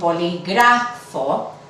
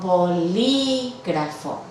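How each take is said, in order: First: The stress falls on the third syllable, 'gra'. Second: The stress falls on the second syllable, 'lí'. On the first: The speaker calls it wrong. "el acento fonético caería en la penúltima" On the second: The speaker calls it right. "la sílaba tónica no es la penúltima"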